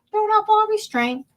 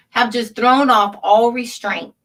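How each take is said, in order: First: "Thrown off all restraint" repeated higher, leaning on "off"; emphatic repeat. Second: Said in the usual way. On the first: Real, not acted. Host repeating his accusation to viewers for emphasis. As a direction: echo it with disbelief, higher, hitting "off".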